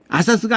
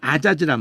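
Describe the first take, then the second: First: It is said with s sounds. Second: It is said with z sounds. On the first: The speaker calls it wrong. "아사스가 아니라" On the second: The speaker calls it right. "아자즈란 말이에요"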